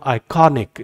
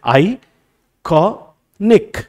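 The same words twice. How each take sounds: First: iconic as one word, stress on कॉ; stressed second syllable. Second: iconic in three very slow, separated beats; drawn-out teacher's syllable count of iconic. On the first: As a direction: lean on कॉ in iconic, falling away on निक. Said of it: "उसको higher बोल रहा हूँ". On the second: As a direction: break iconic into आइ, कॉ, निक with long pauses. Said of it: "तीन syllables सुनाई दे रहे हैं". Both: Shown as a demonstration.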